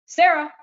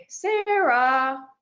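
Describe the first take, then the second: First: Sarah snapped out loud and high; sharp loud call. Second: Drawn-out rising Sarah; questioning call. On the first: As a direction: call the name sharply, like a scold. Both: Shown as a demonstration. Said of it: "tell you guys my name in three different ways".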